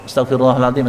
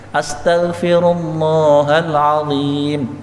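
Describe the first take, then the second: First: The vowel in Allah is cut short. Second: The vowel in Allah is held long. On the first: The speaker calls it wrong. "Kayak lafal Allahnya tidak panjang" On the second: The speaker calls it right. "usahakan panjang"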